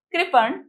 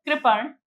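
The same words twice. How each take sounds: First: कृपण said again, higher and carefully articulated; repeated clearly. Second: Said in the usual way. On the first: Shown as a demonstration. Teacher repeating the word for the children, higher and clearer. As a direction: say कृपण once more, slower and clearer, pitched higher. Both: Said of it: "repeat".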